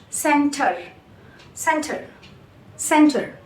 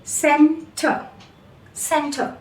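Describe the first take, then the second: First: "center" with the final R sounded; American center. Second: "center" ending in a schwa, no R; British center. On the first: Teacher contrasting accents, American R sounded. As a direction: end "center" on a clear R. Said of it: "American English". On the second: Teacher contrasting accents, British R dropped. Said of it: "British English". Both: Shown as a demonstration.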